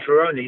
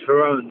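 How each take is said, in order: First: The name ends with an 'ee' sound. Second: The name ends without an 'ee' sound. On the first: People understand the name right away. "if I say Ferroni, they get it right away" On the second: People do not understand the name. "they changed the I to an E and pronounced it Ferrone"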